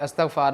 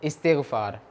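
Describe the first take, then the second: First: The word begins with an 'a' vowel. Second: The word begins with an 'i' vowel. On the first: The speaker calls it wrong. "ये हम आमतौर पे गलत लफ्ज़ पढ़ते हैं" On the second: The speaker calls it right. "अलिफ़ के नीचे ज़ेरा ... इस तरह बोला जाता है"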